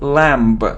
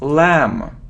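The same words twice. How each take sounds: First: A b sound is heard at the end. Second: No b sound is heard at the end. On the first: The speaker calls it wrong. "It isn't lamb" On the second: The speaker calls it right. "We don't pronounce B"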